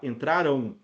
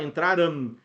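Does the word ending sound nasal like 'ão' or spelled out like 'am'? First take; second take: nasal ão; spelled am. First: The ending is pronounced as a nasal 'ão'. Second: The ending is pronounced as a written 'am'. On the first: The speaker calls it right. "a gente fala entraram" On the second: The speaker calls it wrong. "a gente não fala entraram"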